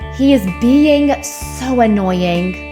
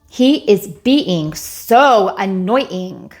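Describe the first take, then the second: First: The words are linked smoothly with glides. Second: The words are separated and sound choppy. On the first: The speaker calls it right. "let's link it and make it graceful" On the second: The speaker calls it wrong. "chopped up first"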